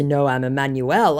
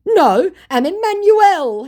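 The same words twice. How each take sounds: First: Said in the usual way. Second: High, loud, drawn-out protest; mock scammer. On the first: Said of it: "And in response to". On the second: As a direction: announce the name in mock pleading, stretched up high. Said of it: "he said".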